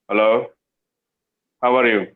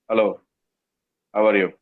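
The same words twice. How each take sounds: First: The greeting sounds flat and lifeless. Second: The same.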